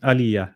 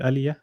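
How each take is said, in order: First: The vowel after the first sound is short. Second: The vowel after the first sound is drawn out. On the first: The speaker calls it wrong. "you're saying aliyah" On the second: The speaker calls it right. "not aliyah"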